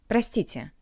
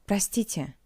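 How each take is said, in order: The two takes are said the same way.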